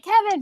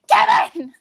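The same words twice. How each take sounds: First: The name is said calmly, without yelling. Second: The name is yelled loudly like a frantic mom.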